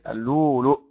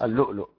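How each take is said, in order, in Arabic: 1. تُنطق الهمزة الأولى مدًّا طويلًا. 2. تُنطق الهمزة الأولى همزة حنجرية. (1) "الهمزة الأولى واو ساكنة مادية" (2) "حفص اللؤلؤ"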